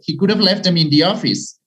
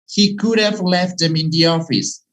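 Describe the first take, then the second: First: It is said very fast with could have contracted. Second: It is said faster with could have contracted. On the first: "Even faster" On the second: "We tend to contract and speak faster"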